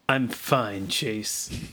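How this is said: It is said in a cool voice.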